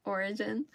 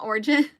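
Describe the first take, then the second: First: "Origin" in three syllables, OR-i-jin, rising; corrected attempt. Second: "Origin" said as two-syllable OR-jin, louder; rejected pronunciation. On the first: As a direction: try "Origin" carefully as or-i-jin. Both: Shown as a demonstration. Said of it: "not Origin".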